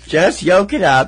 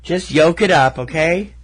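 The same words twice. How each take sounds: First: Loud, high, slow mock scolding; emphatic mock exasperation. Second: Higher, louder mock scolding; mock exasperation. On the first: Co-host hammering the egg pun home, loud mock exasperation. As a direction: drag out the pun with playful force. Repeats pun with more force. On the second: Co-host firing back an egg pun, mock exasperation. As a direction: playfully push the pun at them.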